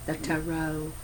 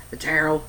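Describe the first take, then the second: First: "Tarot" said TAH-roh, open a; standard pronunciation. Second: "Tarot" said TEH-roh, Canadian accent. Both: Shown as a demonstration. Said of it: "My Canadian accent".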